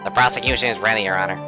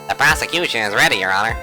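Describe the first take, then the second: First: It is said in his own natural voice. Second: It is said in a put-on character voice.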